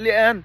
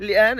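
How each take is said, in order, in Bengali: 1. মাঝের t-এর জায়গায় glottal stop ব্যবহৃত হয়েছে। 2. মাঝের t-এর জায়গায় glottal stop ব্যবহৃত হয়েছে।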